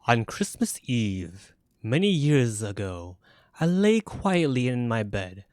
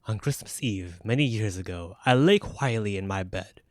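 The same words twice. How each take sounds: First: It is read in a bouncy rhyming rhythm. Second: It is read in a plain storytelling rhythm.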